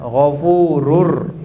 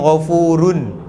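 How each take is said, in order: First: The final n merges into an r sound. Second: The final n is pronounced clearly. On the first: The speaker calls it right. "Dia kena masukkan ke dalam ra. Leburkan ra tu ke ra yang kedua" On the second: The speaker calls it wrong. "Kalau kita baca dengan jelas, dia akan bunyi Ghafurun. Itu salah"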